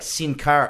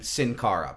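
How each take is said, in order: First: The name is said with a foreign accent. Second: The name is said with plain English sounds. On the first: "They're putting a little accent on it" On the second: "I pronounce it in English"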